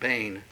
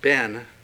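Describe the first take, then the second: First: The vowel is long, like 'bane'. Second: The vowel is short, like 'ben'. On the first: The speaker calls it right. "it's probably best pronounced bane" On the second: The speaker calls it wrong. "we oftentimes pronounce it ben"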